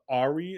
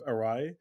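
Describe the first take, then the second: First: It is said as 'Ari', without the middle sound. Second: It is said as 'Arai', with the middle sound. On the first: This is how it was once read from text. The speaker calls it wrong. "I used to say uh, Ari" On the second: This is how the word is actually said. The speaker calls it right. "instead of Arai"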